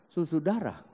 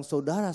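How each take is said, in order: First: Susudara said with a doubled su instead of Saudara; mispronounced word. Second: Said in the usual way. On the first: Retold or imitated. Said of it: "ngomong Indonesianya kadang-kadang salah". (Susudara diucapkan salah, bukan Saudara) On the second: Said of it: "ngomong saudara aja susudara".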